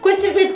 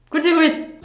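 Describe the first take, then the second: First: It is said even more quickly. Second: It is said quickly. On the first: "mais rápido" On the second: "fala rápido"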